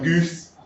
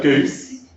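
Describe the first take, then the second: First: "goose" with the oo pushed forward; fronted London youth "goose"; fronted vowel. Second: Said in the usual way. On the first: Shown as a demonstration. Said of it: "So it comes, like, towards the front". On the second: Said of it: "instead of".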